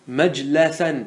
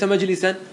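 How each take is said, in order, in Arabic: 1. الصوت بعد اللام 'a'. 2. الصوت بعد اللام 'i'. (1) "مجلسا بفتح اللام" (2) "ليس مجلسا"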